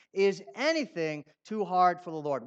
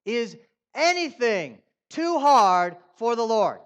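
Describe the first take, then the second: First: Said in the usual way. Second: Slow, loud challenge stressing hard; preaching with force. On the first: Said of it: "rhetorical question repeated". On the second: Shown as a demonstration. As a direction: demand an answer from the crowd. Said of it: "Is that how you feel?".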